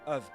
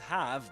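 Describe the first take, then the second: First: The word is reduced to a weak 'of' sound. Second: The word is said in full as 'have'. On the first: "but of of" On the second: "not pronounced as have"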